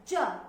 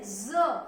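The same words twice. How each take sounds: First: The tongue touches the palate, giving a 'j' sound. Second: Air buzzes through without contact, giving a 'z' sound. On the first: "जब हम ज बोलते हैं तो हमारी जो जीभ है वो तालू से लगती है।" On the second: "तो हमारी जो जीभ है वो तालू से नहीं लगती, बल्कि उनके बीच से हवा बाहर आती है"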